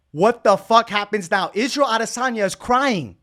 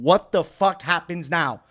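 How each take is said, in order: First: Loud, high-pitched disbelief; hyped outburst. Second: Slow, emphatic rhetorical question; emphatic lead-up. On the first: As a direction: blurt it out like breaking a huge reveal. Repeats it, erupting at the reveal. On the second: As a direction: set up the big reveal slowly. First take of repeated hype question. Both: Real, not acted.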